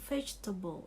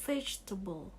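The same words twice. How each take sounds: No difference in how they are said.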